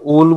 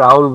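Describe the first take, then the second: First: The vowel is a plain 'o' sound. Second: The vowel glides from 'a' to 'u'. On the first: "একবার ওল বলি" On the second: "একবার আউল বলি"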